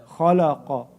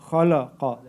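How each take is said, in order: No difference in how they are said.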